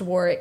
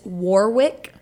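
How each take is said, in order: First: The middle w sound is silent. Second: The middle w sound is pronounced. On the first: The speaker calls it right. "but it's pronounced Warwick" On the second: The speaker calls it wrong. "It's written as it's Warwick"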